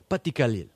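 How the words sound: The title is said firmly, with conviction. The speaker calls it right.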